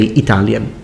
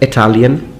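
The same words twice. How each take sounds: First: The first vowel is a tense, Italian-like 'ee'. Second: The first vowel is a short, lax 'ih' sound. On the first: The speaker calls it wrong. "or I say Italian" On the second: The speaker calls it right. "So I should say"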